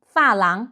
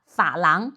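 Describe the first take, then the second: First: 发廊 with 发 falling. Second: 发廊 with 发 low; Taiwan-style 发廊, third-tone 发. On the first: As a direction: drop the tone on 发 in 发廊. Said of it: "pronounced as a falling tone". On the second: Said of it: "pronounced as a third tone". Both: Shown as a demonstration.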